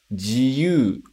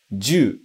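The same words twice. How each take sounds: First: "jiyu" as ji-yu, sounds separate; teacher models "jiyu" with ji and yu apart; uncontracted jiyuu. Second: "ju" as one sound, ju-u; teacher models "ju" in one syllable; contracted juu. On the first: Teacher showing freedom word: "jiyu" split ji-yu. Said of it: "a pronúncia é jiyu". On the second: Teacher showing pistol word: "ju" contracted. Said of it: "a pronúncia fica ju". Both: Shown as a demonstration.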